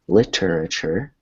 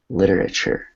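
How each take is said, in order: First: The middle T is a hard, crisp T. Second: The middle T is a soft, flapped T. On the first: The speaker calls it wrong. "which would be a hard T" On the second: The speaker calls it right. "you want it to sound more like literature"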